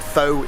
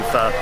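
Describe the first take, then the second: First: The vowel sounds like the one in 'foe'. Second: The vowel sounds like the one in 'fur'. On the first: The speaker calls it wrong. "or a faux if you pronounce it that way" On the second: The speaker calls it right. "but you need to pronounce it fur"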